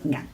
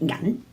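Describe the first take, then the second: First: The word is said with its basic tone. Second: The word is said with a changed tone. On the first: It means the metal silver. "when we use 銀 for meaning silver" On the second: It means money. "when we use 銀 for money we usually will change the tone"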